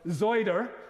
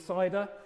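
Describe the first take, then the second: First: It is said in a local rural accent. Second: It is said in a standard English accent.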